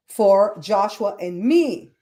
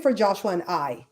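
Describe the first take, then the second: First: Slow, deliberate, weight on final "me"; stress on me. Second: Said in the usual way. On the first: Shown as a demonstration. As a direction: draw the phrase out and land on "me". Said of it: "He didn't bring it for Joshua and I". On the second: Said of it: "He didn't bring it".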